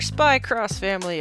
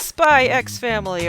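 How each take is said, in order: First: The middle is said as the word cross. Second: The middle sounds like the letter ex. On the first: "however you pronounce that X in the middle" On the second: "however you pronounce that X in the middle"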